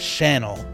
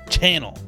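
First: The word begins with a soft sh sound. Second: The word begins with a sharp ch sound. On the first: The speaker calls it wrong. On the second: The speaker calls it right.

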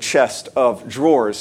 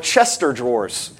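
First: A separate 'of' is heard after 'chest'. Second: The middle sounds merge into one word, 'Chester'. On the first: The speaker calls it right. "it's actually chest of drawers" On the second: The speaker calls it wrong. "I had always thought they were Chester drawers"

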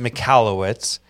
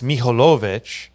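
First: The surname is said in an anglicized way. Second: The surname is said in its original way. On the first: This is how the bearer says it day to day. "I pronounce it Michalowicz" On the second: This is how it is said in the old country. "In the motherland, it's Michalowicz"

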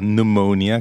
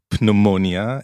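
First: The word begins with an N sound, no P. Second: The word begins with a pronounced P sound. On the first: The speaker calls it right. "כי ה-P היא בעצם סיילנט" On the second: The speaker calls it wrong. "לא אומרים פנאומוניה"

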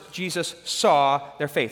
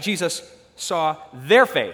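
First: The word 'saw' is stressed. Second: The word 'their' is stressed. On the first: The point is what Jesus saw. "So the first, we're thinking about what he saw" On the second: The point is whose faith it was. "Second, the fact it's their faith"

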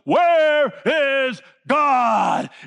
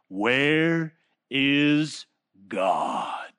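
First: It is shouted loudly. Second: It is said calmly.

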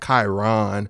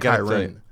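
First: The stress is on the second syllable. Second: The stress is on the first syllable. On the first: The speaker calls it wrong. "people probably put the emphasis on the second syllable" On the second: The speaker calls it right. "you're supposed to go Chiron"

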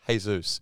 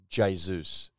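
First: The name begins without an English J sound. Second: The name begins with an English J sound. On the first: The speaker calls it right. "It's Jesus or Jesus" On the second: The speaker calls it wrong. "They say the J. ... you say it wrong. It's not Jesus"

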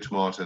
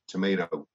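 First: It is said with a non-American pronunciation. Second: It is said with an American pronunciation. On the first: "They don't go tomato" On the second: "they go tomato"

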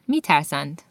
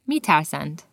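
No difference in how they are said.

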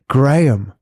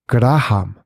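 First: It is said with a native English pronunciation. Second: It is said with a Japanese-style pronunciation. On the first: This is how the owner says the name. The speaker calls it right. "I kept saying it's Graham" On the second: This is how others mispronounced the name. The speaker calls it wrong. "nobody could bloody pronounce my name"

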